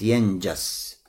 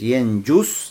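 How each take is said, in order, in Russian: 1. Гласный после 'nj' — 'a'. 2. Гласный после 'nj' — 'u'. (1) "с фатхой" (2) "с даммой"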